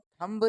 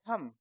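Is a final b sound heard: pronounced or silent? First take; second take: pronounced; silent. First: A b sound is heard at the end. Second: No b sound is heard at the end. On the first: The speaker calls it wrong. "इसको हम थंब नहीं बोलते" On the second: The speaker calls it right. "दोस्तों इसमें जो बी letter है ना, वो साइलेंट है।"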